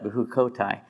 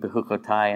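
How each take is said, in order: First: The stress is on the second-to-last syllable. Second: The stress is on the last syllable. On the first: It is used as the title of the portion. "you pronounce the second to last syllable with the accent because it's the title" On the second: It is the ordinary word, not the title. "Otherwise, it would be"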